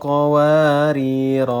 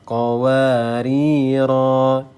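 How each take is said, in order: First: The final vowel is short. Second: The final vowel is drawn out long. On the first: The reader carries on without stopping. "maka pendek semualah" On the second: The reader stops after this word. "panjang jadinya ya"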